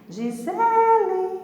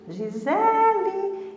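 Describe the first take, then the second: First: The stress is on the second syllable. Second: The stress is on the second syllable.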